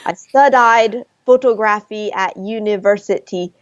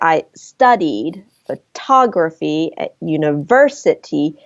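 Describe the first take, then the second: First: Every syllable is stressed equally, sounding robotic. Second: Some syllables are stressed and others are weak.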